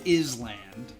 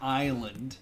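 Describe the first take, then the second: First: The S sound is pronounced in the word. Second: The S sound is silent in the word. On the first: The speaker calls it wrong. "Not an island" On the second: The speaker calls it right. "an island"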